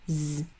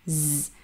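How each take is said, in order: First: The consonant has a slight buzzing, ringing sound. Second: The same.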